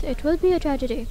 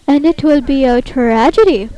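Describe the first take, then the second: First: Said in the usual way. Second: Loud, swooping tragic declaration; mock theatrical. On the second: Player imagines the caller overhearing, loud mock-tragic. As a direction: proclaim it grandly, hammed-up. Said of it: "talking like this".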